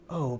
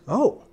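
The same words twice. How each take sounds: First: The oh sounds pleading, like an appeal. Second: The oh sounds surprised. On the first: The speaker is pleading with someone. "It can be emotions such as appeal, like" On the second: The speaker is caught off guard. "Or surprise"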